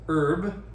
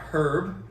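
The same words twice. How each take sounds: First: The word begins with a vowel, no H sound. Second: The word begins with an audible H sound. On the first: The speaker calls it right. "H is silent" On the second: The speaker calls it wrong. "It's not herb"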